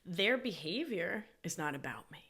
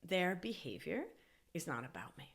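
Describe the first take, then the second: First: It is said noticeably louder and more forcefully. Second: It is said at a normal, moderate volume.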